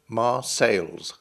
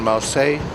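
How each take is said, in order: First: The name ends with an S sound. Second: The name ends without an S sound. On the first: This is the old English form of the name. "pronounced the town's name with an S on the end" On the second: This is the modern French form of the name. "the French dropped it"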